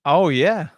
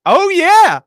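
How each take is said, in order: First: Said in the usual way. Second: High, loud burst of hype; hyped-up yell. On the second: Pretend. Co-host hyping up the official intro, hyped-up yell. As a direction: belt it out with mock excitement.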